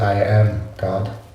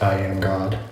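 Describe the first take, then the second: First: There is a pause between "I am" and "God". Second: It is said without a pause before "God".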